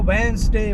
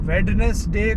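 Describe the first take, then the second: First: The middle d and e are dropped. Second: Every letter is sounded, including the middle d.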